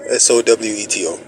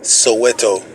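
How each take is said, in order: First: S O W E T O spelled letter by letter. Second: Said in the usual way. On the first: Real, not acted. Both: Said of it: "May I also know your first name".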